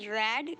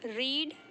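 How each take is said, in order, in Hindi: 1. स्वर छोटा है, 'red' जैसा। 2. स्वर लंबा है, 'reed' जैसा। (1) "इस देखिए इसको बोलते हैं रेड" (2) "भले स्पेलिंग सेम है बट हम इसे प्रोनाउंशिएट करते हैं रीड"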